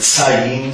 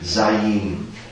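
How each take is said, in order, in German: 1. Der erste S-Laut ist stimmlos. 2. Der erste S-Laut ist stimmhaft. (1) "also nicht Sayin" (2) "Es wird mehr als S, als Stimme auf das S gesprochen"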